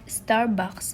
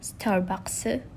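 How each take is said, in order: First: It is said without added vowel sounds. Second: Extra e vowel sounds are added.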